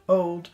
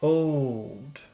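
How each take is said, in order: First: The word is said plainly, without extra emphasis. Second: The word is said with strong, lengthened emphasis.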